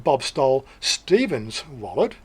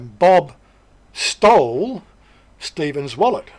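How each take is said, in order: First: The stress is on Stephen. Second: The stress is not on Stephen. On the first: The point is who the victim was. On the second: Bob committed a theft against someone.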